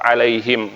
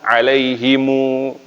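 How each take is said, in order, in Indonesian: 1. Kata ini berakhir dengan bunyi m tertutup. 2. Kata ini berakhir dengan tambahan vokal u. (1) "kalau berhenti tetap alaihim" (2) "tapi kalau disambung alaihimu"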